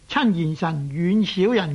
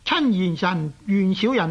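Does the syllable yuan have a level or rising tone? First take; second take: rising; level. First: The syllable yuan is said with a rising tone. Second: The syllable yuan is said with a level tone. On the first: The word is an adjective meaning far. The speaker calls it wrong. "我们不能读做亲贤臣怨小人的" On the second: The word is a verb meaning to keep at a distance. The speaker calls it right. "都是读去声而不是读上声的"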